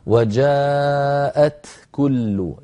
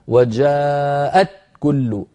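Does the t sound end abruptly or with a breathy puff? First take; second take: breathy puff; abruptly. First: The t ends with a breathy puff of air. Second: The t is cut off with no breath. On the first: The speaker calls it right. "لابد من شدة في التاء يتلوها همس هكذا" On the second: The speaker calls it wrong. "أت هكذا مبتورة نأتي بالشدة دون همس"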